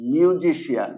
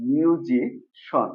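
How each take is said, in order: First: "মিউজিশিয়ান" ending in two syllables, shi-yan; common mispronunciation. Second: "মিউজিশন" slowly, ending in one syllable shon; correct SHON ending. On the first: Teacher quotes what we usually say, "মিউজিশিয়ান" ending shi-yan. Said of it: "মিউজিশিয়ান আমরা বলি এটাকে". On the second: Teacher corrects the usual form, "মিউজিশন" ending in shon. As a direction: stretch "মিউজিশন" as myu-zi, then shon. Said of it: "এটা হলো". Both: Shown as a demonstration.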